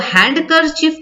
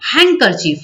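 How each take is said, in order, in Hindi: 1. handkerchief शब्द में d की ध्वनि उच्चारित होती है। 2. handkerchief शब्द में d की ध्वनि साइलेंट रहती है। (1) "इसको हैंडकरचीफ नहीं पढ़ना है" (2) "यहाँ पर जो डी है ना, इसको साइलेंट कर दिया जाता है"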